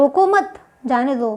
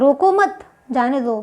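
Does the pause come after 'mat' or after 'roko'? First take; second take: after mat; after mat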